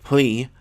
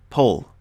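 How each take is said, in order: First: The syllable ends with a long ee sound. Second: A short uh sound comes before the L. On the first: The speaker calls it wrong. "don't ever pronounce these syllables like plee" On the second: The speaker calls it right. "It's like pull"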